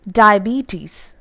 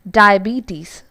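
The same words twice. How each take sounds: Both takes have the same delivery.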